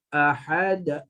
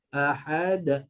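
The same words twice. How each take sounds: No difference in how they are said.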